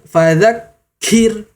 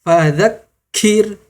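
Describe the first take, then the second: No difference in how they are said.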